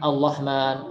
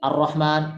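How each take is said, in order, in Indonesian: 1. Konsonan setelah vokal pembuka adalah L. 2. Konsonan setelah vokal pembuka adalah R.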